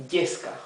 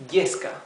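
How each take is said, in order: Both takes have the same delivery.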